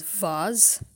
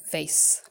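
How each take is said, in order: First: Vase said as "vahz"; original VASE. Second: Vase said as "vayss"; American VASE. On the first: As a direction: say vase with an open AH, ending in Z. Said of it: "original and authentic pronunciation". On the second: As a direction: say vase to rhyme with base. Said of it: "people in the Americas". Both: Shown as a demonstration.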